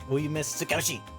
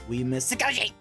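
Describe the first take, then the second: First: It is said flatly, with little energy. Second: It is said with more energy and feeling. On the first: The speaker calls it wrong. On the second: The speaker calls it right.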